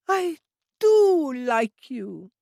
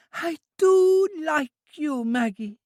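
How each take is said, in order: First: Put-on higher, louder, very slow childlike voice; squeezing her friend's arm with delight; high, loud, drawn-out childlike affection; affectionate Trudy. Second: Put-on high, slow childlike voice, stress on do; a child full of fondness; high drawn-out childlike affection; affectionate Trudy. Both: A narrator's reading.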